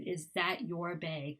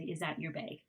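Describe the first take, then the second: First: The word 'your' is said fully. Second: The word 'your' is reduced to a schwa. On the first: "instead of"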